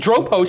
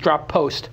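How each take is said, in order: First: A single p sound joins the two parts. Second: The p sound is said twice, ending and starting. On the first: "sounds like the right pronunciation" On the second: "drop post me would be like two P's"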